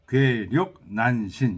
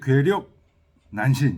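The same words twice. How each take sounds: First: The phrase is split into four separate words. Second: The phrase is grouped into two parts. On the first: It names four separate things. "이렇게 네 가지로 읽기도 하는데" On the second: It names two things. "이렇게 읽기도 하고"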